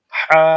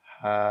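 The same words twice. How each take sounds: First: হা much louder, pushed from the throat; pressed ha. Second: হা lower and softer, airy; a gentle breathy হা; light ha. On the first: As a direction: hit হা hard with throat pressure. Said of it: "pressure create করে একটু চাপ দিয়ে পড়তে হবে". (চাপ দিয়ে জোরে হা) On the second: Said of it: "গোল হাটা হবে হালকা আওয়াজে". (হালকা আওয়াজে হা) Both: Shown as a demonstration.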